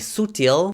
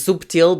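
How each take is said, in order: First: It is said the Brazilian way, without b. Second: It is said the European Portuguese way, with b.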